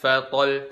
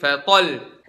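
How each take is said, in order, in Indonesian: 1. Suara tetap datar pada kata itu. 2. Suara dinaikkan pada kata itu.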